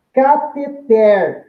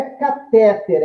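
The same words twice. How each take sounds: First: Cateter bem lento, TER final forte e aberto; tônica na última: cateTER. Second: Catéter com força na sílaba do meio, TÉ; tônica errada no TÉ. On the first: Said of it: "oxítona". (cateter oxítono, dito devagar) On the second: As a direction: diga catéter com TÉ forte e final fraco. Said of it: "não é catéter". (catéter paroxítono, pronúncia de contraexemplo) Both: Shown as a demonstration.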